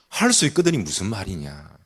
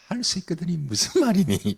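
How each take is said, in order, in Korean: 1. 엄하고 책망하는 어조로 말해집니다. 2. 부드럽고 온화한 어조로 말해집니다. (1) "책망을 해버리십니다" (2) "이렇게 들리세요? 그런 뉘앙스로 들리지 않죠"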